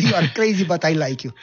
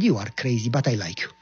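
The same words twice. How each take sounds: First: Amused repeat. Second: Said in the usual way. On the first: Retold or imitated. Lieutenant to Goya, repeated with an amused lift. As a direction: toss it out again, delighted.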